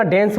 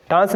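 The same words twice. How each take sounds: First: डेंस with an "e" vowel, as "dens"; correct pronunciation. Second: डांस with a long "aa" vowel; wrong pronunciation. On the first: Teacher tells students the form to use, डेंस said "dens". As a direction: say डेंस to rhyme with "ens". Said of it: "डेंस बोलना आज से". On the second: Teacher warns students off this form, डांस said "daans". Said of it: "डांस नहीं बोलना". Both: Shown as a demonstration.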